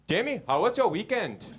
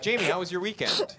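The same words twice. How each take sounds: First: It is said in an Indian accent. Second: It is said in a plain, unaccented voice. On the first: "that was Indian" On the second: "I'll do my voice for her"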